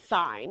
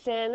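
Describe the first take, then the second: First: The vowel is long, rhyming with fine. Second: The vowel is short, rhyming with fin. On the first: The speaker calls it right. "but it is the sine" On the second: The speaker calls it wrong. "please don't say sin"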